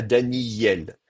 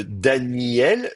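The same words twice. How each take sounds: First: "Daniel" slowly as Dani-yel; inserted y. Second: "Daniel" slowly, i and el as separate vowels; starting form. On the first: Teacher shows the changed form, y glide in "Daniel". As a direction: lengthen i and glide through a y in "Daniel". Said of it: "une sorte de Y entre les deux". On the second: Teacher shows the form before change, slow "Daniel". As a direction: draw out "Daniel" as Dani-el, no y. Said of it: "je vais passer à Daniel". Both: Shown as a demonstration.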